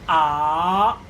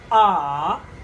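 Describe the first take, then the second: First: The pitch goes up. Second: The pitch dips down, then comes up. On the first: "The second one is raising" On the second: "Go down and come up"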